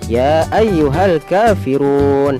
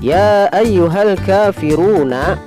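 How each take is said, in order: First: The last word ends on a bare consonant. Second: The last word ends with a full vowel ending.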